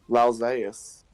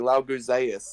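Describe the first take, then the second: First: The name is said with no G sound. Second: The name is said with a G sound. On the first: The speaker calls it right. "It's silent" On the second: The speaker calls it wrong. "By your logic, it would be"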